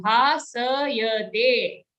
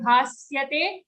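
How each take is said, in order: First: Bhasayate with a full sa. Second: Bhasyate with sa clipped; wrong bhasyate. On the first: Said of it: "it's a full sa sound". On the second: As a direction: drop the a in bhasyate. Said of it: "don't say bhasyate". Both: Shown as a demonstration.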